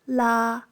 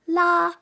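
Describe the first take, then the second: First: The pitch stays level in the middle. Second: The pitch stays high and level. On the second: "tones one"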